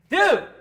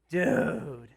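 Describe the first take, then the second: First: It sounds like a friendly greeting. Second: It sounds disappointed, like scolding a blunder.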